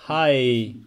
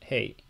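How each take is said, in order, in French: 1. La voyelle ressemble au mot anglais 'high'. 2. La voyelle se situe entre 'hay' et 'high'. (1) "c'est pas hi" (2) "C'est entre les deux. ... un poil de I à la fin"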